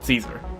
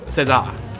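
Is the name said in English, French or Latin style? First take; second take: English; French. First: The name is said in English style. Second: The name is said in French style. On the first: "the English and the French call it the guy Caesar" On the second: "the French is César"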